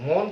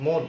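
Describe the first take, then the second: First: মন with open "aw", "mawn"; wrong-way মন, as "mawn"; rejected pronunciation. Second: মন with closed "o", "mon"; right-way মন, as "mon"; correct pronunciation. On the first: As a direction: open the vowel of মন wide to "aw". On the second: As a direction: round মন to a close "o". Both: Shown as a demonstration. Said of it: "মন কিন্তু বলছে না".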